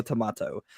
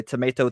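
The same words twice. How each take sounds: First: "tomato" with a broad ah vowel, toe-MAH-toe; "tomato" said tuh-MAH-toh; tomah-to. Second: "tomato" with a long ay vowel, toe-MAY-toe; "tomato" said tuh-MAY-toh; tomay-to. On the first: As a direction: say "tomato" the British way, MAH in the middle. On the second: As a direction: say "tomato" the American way, MAY in the middle. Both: Shown as a demonstration. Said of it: "like to say tomato, tomato".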